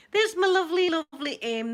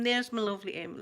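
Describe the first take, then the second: First: High, loud, delighted hello; excited greeting. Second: Said in the usual way. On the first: Real, not acted. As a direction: burst out with joy at seeing her.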